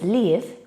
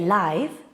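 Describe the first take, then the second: First: The vowel is short, as in 'give'. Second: The vowel is long, as in 'five'. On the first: It means to have a home somewhere. "We pronounce it as live when it's a verb" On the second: It means happening while people watch. "We say live when it's an adjective"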